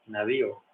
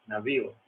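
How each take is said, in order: No difference in how they are said.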